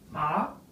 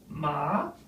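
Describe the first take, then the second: First: The pitch rises from middle to high. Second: The pitch dips down and rises again. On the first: It means numb. "the second tone to the same letters as a rising" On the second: It means horse. "The third, falling rising"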